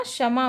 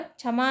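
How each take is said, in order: First: क्षमा said as "shama"; correct pronunciation. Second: क्षमा said as "chhama"; wrong pronunciation. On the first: Teacher giving students the right form, क्षमा as "shama". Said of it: "होगा". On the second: Teacher pointing out the error to students, क्षमा as "chhama". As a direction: open क्षमा on chh. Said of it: "तो यहाँ क्षमा होगा". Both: Shown as a demonstration.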